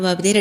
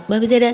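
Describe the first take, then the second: First: Said in the usual way. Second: ബബിതയുടെ said again higher and louder; ബബിതയുടെ repeated higher and louder to correct the slip; stressed restart. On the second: Real, not acted.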